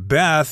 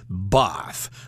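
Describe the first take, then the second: First: The word is said with an American accent. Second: The word is said with a British accent. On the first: "the American pronunciation" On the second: "someone from England, they're likely to say"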